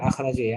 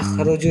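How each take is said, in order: First: The second syllable has the vowel a. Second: The second syllable has the vowel u. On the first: The speaker calls it wrong. "bukan akhraju ya" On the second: The speaker calls it right. "Akhruju ya"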